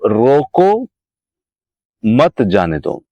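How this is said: There is a pause after 'roko'. Stop the person; do not let them go. "मैंने यहाँ पर एक कामा लगा दिया, रोको"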